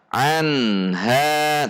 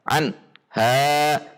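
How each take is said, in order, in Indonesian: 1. Huruf n tetap memiliki dengung sengau yang pendek. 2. Huruf n dipotong tiba-tiba dan disentak. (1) "tapi tetap ada gunnahnya" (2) "contoh yang dihentak an ha, ... nah itu dihentak"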